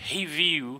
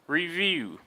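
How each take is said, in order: First: The first R has a Portuguese-style sound. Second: The first R has an American English sound. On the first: The speaker calls it wrong. "most people in Brazil will pronounce these words and they'll say" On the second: The speaker calls it right. "in American English, it's always going to be"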